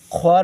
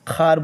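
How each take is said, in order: First: A w sound is heard after the kh. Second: No w sound is heard after the kh. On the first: The speaker calls it wrong. "ख्वार नहीं" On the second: The speaker calls it right. "बल्कि खार बोलेंगे"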